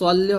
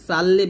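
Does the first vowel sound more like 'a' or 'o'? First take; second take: o; a. First: The first vowel sounds close to 'o'. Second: The first vowel sounds like an open 'a'. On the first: The speaker calls it right. "সল্লি হবে" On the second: The speaker calls it wrong. "সাল্লি বলা যাবে না"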